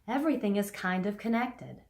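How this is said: The first vowel starts softly, with a breathy onset. The speaker calls it right. "Like I just did there"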